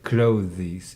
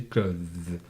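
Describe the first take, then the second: First: "clothes" wrongly split into two syllables, klo-thees; wrong pronunciation. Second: "clothes" in one syllable with th-z ending; correct pronunciation. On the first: Teacher warns pupil against error, "clothes" as two-syllable klo-thees. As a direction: add a vowel before the s in "clothes". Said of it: "do not pronounce it like". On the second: Teacher shows the difficult word, "clothes" as one syllable. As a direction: say "clothes" low, buzzing the final th-z. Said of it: "difficult pronunciation. You see". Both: Shown as a demonstration.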